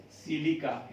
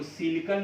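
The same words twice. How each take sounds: First: सिलिका ending in an open "kaa"; correct reading. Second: सिलिकॉन ending in a nasal "-kan"; mistaken reading. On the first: Teacher showing students how to read the term, सिलिका ending in "kaa". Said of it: "पढ़िएगा". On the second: Teacher warning students off a misreading, सिलिकॉन with a final n. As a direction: say सिलिकॉन with a final n in place of "kaa". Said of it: "इसको सिलिकॉन नहीं पढ़िएगा". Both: Shown as a demonstration.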